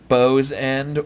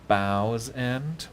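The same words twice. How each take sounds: First: The name is pronounced in the ordinary way. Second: The name is pronounced in a theatrical way.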